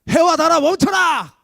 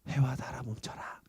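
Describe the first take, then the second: First: The phrase is shouted in a loud voice. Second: The phrase is whispered softly and sweetly. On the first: "소리를 좀 크게 내야겠지" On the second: "이렇게 좀 예쁘게 더 해와 달아 멈춰라. 속삭이면서 이렇게"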